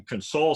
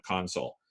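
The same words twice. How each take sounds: First: "console" as con-SOLE; second-syllable stress. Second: "console" as CON-sole; first-syllable stress. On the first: Lecturer on comforting somebody sad, end-stressed "console". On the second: Lecturer naming an equipment panel, front-stressed "console". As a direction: stress the start of "console", as the noun. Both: Shown as a demonstration. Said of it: "where you put the emphasis".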